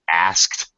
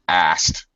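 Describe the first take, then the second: First: The K sound in the middle is clearly heard. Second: The K sound in the middle is dropped. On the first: "It's going to sound like A S K T" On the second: "Very common for English speakers to reduce that to asked"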